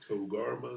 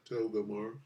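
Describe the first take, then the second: First: The name is said as Togarma. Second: The name is said as Togamar. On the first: The speaker calls it right. "Togarma is how you say it" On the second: The speaker calls it wrong. "not Togamar"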